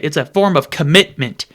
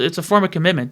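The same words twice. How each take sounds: First: Each syllable of commitment is stressed and drawn out. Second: The phrase is said in an ordinary, relaxed way. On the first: Trying to sound more intelligent. The speaker calls it wrong. "you don't need to sound out the syllables" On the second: Plain everyday speech. The speaker calls it right. "just start speaking normally. Just say"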